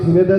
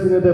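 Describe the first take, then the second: The two takes are said the same way.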